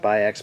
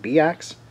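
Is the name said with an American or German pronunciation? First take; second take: American; German. First: The name is said with an American pronunciation. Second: The name is said with a German pronunciation. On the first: This is how people in the US usually say it. "most Americans pronounce it Bi-X" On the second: This is how the company itself would say it. "I would assume that they would pronounce it Bi-X"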